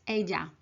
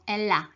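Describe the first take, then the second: First: The double L sounds like an English Y. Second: The double L sounds like an English L. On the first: The speaker calls it right. "is ella" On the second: The speaker calls it wrong. "the pronunciation is not ella"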